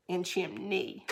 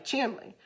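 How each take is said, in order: First: "chimney" with N, CHIM-nee, softly; corrected pronunciation. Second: "chimney" said as CHIM-lee; dialect pronunciation. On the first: Retold or imitated. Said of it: "there's no L". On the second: Shown as a demonstration. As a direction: say "chimney" with L replacing N. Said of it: "is what I would always say".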